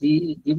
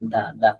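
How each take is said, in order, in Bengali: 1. শব্দটি 'ee' স্বরধ্বনি দিয়ে উচ্চারিত হয়। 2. শব্দটি ছোট 'uh' স্বরধ্বনি দিয়ে উচ্চারিত হয়। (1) "আপনি সব দি পড়তেছেন" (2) "এখানে আপনি দা পড়েন"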